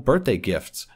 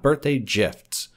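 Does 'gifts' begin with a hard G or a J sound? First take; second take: hard G; J sound. First: The word gifts begins with a hard G sound. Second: The word gifts begins with a J sound. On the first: The speaker calls it right. "I give people birthday gifts" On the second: The speaker calls it wrong. "not birthday gifts"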